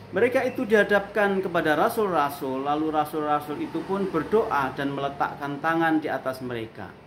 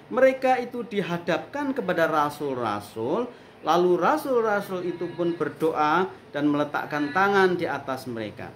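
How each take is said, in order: Both takes have the same delivery.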